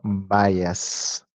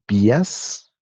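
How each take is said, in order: First: The word is pronounced the English way. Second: The word is read letter by letter, Spanish-style. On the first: "creo que se pronuncia así" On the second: "así si lo leemos tal cual"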